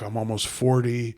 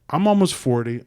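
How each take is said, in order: First: It is said in a dejected, negative tone. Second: It is said in an upbeat, positive tone. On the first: The situation is something to feel bad about. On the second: The situation is something to feel good about. "You change the tone"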